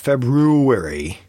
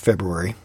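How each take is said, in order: First: The middle 'ru' is clearly emphasized. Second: The middle 'ru' is slurred and not emphasized. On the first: The speaker calls it wrong. "We're not kangaroos around here" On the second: The speaker calls it right. "Not emphasizing the roux"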